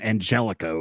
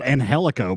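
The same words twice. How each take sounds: First: The name has an Americanized pronunciation. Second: The name has a Spanish-style pronunciation. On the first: This is the new way the name is being said. The speaker calls it wrong. "they like Americanized the pronunciation of his name" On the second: This is how the name was always said. The speaker calls it right. "He was always called Angelico before"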